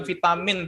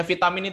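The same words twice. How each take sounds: First: Vitamin dibaca vaitamin; vitamin diucapkan vaitamin dengan v; correct vitamin. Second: Vitamin dibaca fitamin dengan f; vitamin diucapkan fitamin; wrong vitamin. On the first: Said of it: "tapi vitamin ya". (vitamin dengan ai) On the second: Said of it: "bukan vitamin". (vitamin dengan f) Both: Shown as a demonstration.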